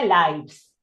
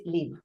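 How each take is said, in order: First: "lives" with an "eye" vowel and voiced v; noun plural pronunciation. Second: "live" with a short i, no "eye" sound; verb pronunciation. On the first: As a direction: demonstrate "lives" rhyming with "hives". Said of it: "se pronuncia lives". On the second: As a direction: demonstrate "live" rhyming with "give". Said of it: "cuando es un verbo". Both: Shown as a demonstration.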